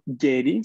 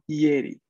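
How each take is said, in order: First: The first sound is a strong, hard Y. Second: The first sound is a soft, light Y. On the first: The speaker calls it wrong. "No es tanto Yeri" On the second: The speaker calls it right. "pero no tan fuerte. Un poco más suave"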